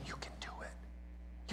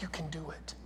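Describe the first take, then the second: First: Breathy whisper, slow and close. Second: Softer, voiced half-whisper; soft encouragement. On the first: Retold or imitated. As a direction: whisper encouragement right in her ear. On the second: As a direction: ease it out gently, almost a whisper.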